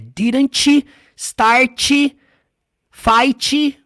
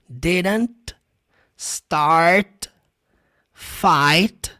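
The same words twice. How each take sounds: First: An extra 'ee' vowel follows each final T. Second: The final T sounds are very light and subtle. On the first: The speaker calls it wrong. "O que você não pode fazer é ... Não tem esse som do I no final" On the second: The speaker calls it right. "Viu só esse T no final? É muito sutil"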